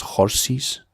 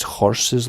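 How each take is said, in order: First: "horses" as Glaswegian "horsies". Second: Said in the usual way. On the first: Shown as a demonstration. Guide showing Glasgow speech, "horses" said childlike as "horsies". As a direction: say "horses" with an ee in the second syllable, like "doggy". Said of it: "as if a kid's saying horses". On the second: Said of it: "they pronounce horses like as if".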